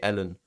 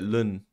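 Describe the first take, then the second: First: It is spelled out as two letters, el-en. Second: It is said as one short syllable, lun. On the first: This is how Americans say it. "they say Ellen" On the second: This is how people in England say it. "we tend to call it Lun in England"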